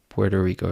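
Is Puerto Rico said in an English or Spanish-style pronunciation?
English. It is said with an ordinary English pronunciation. "it pains me internally deeply every time I call it that"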